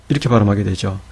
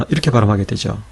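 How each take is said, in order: No difference in how they are said.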